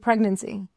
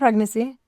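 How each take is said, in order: First: The n sound in the middle is pronounced. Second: The n sound in the middle is dropped. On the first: The speaker calls it right. "Enunciate the N" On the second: The speaker calls it wrong. "You don't say the M"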